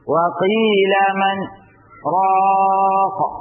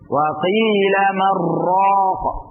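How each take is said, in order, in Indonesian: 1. Ada jeda diam yang singkat sebelum kata terakhir. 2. Kata-kata terakhir menyatu tanpa jeda. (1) "kita berhenti sejenak... di sini kita diam. Diam kurang lebih dua harakat" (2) "dengan cara menyambung. Ya, dengan cara idgham"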